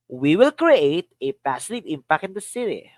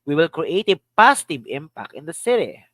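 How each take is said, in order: First: The word "create" carries the main stress. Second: The word "positive" carries the main stress. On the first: "Another. Create" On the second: "Another. Positive"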